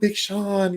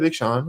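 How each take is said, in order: First: It is said in an excited, swooning way. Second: It is said in a flat, unimpressed way. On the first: The person is found very attractive. "ooh, [name], yes, [name], you're so hot" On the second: The person is found only passable. "okay, [name], okay, whatever"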